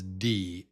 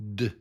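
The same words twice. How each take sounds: First: It is said as the letter name with 'ee'. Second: It is a short consonant sound without 'ee'. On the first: This names the letter. "The letter's name is D" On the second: This is the sound the letter makes. "and the sound is D"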